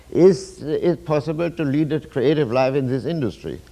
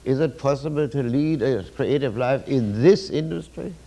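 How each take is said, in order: First: Hopeful, upbeat reading of the question; optimistic tone. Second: Gloomy, doubtful reading of the question; pessimistic tone. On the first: Lecturer demoing the optimist's way of asking, upbeat. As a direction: ask it as if the answer is surely yes. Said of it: "I'm going to tell you how this theme runs with the optimeter". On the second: Lecturer demoing the pessimist's way of asking, glum. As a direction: ask it as if the answer is surely no. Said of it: "But the pessimeter would sound like this". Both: Shown as a demonstration.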